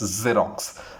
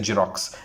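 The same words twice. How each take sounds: First: The word begins with a z sound. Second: The word begins with a j sound. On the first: The speaker calls it right. "Z sound has to come whenever you pronounce this word" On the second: The speaker calls it wrong. "they say Xerox. It's not Xerox, not J"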